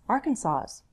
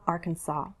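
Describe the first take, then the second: First: The word ends with an audible S sound. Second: The word ends without any S sound. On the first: "Some people say the S" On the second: "I say Arkansas without an S"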